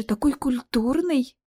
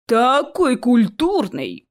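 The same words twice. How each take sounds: First: Slow, marvelling remark; impressed surprise. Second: Slow, drawn-out mocking echo; mimicking mockery. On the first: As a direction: marvel at such unexpected manners. (удивлённое восхищение) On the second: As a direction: parrot the vampire girl sarcastically. (передразнивая, с издёвкой) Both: A narrator's reading. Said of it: "передразнил Чес вампиршу".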